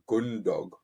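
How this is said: The vowels are closed, in a Yorkshire accent. "the vowels are very closed"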